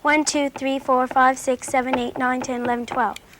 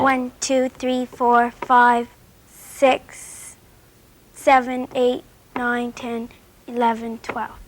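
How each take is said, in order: First: The counting is rushed and very fast. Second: The counting is at a relaxed, slower pace.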